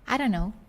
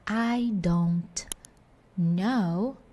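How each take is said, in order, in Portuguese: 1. As palavras se juntam numa forma reduzida. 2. Cada palavra é dita completa e separadamente.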